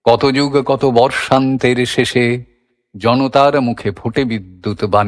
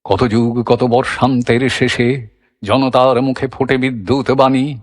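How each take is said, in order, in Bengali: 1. কণ্ঠ স্থির থাকছে, কোনো কম্পন নেই। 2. কণ্ঠ ইচ্ছাকৃত কম্পনে কাঁপছে। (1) "এই চালে চলছে" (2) "এবার কম্পন বসানো হচ্ছে"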